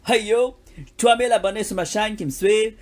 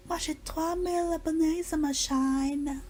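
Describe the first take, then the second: First: Loud English-accented street French. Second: High, slow English-accented French. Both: Shown as a demonstration. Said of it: "ça c'est un accent anglais".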